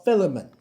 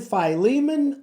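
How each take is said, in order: First: "Philemon" said FIL-uh-mun, stressed on FIL; FIL-uh-mun pronunciation. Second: "Philemon" said fy-LEE-mun, stressed on LEE; fy-LEE-mun pronunciation. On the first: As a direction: say "Philemon" with a short i, stress up front. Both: Shown as a demonstration. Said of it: "here is the big debate".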